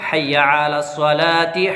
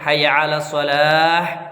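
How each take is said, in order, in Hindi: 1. यह -ti पर खत्म होता है और अगले वाक्यांश से जुड़ जाता है। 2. यह अंतिम h पर विराम के साथ रुकता है। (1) "सांस नहीं छोड़ना, इकट्ठा पढ़ना है" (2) "अलग अलग अगर पढ़ना है"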